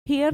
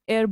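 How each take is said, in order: First: The word starts with an h sound. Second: The word starts with a vowel sound. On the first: The speaker calls it wrong. "हेयर नहीं बोलते इसको" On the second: The speaker calls it right. "एयर बोलते हैं, मतलब H का sound नहीं आता"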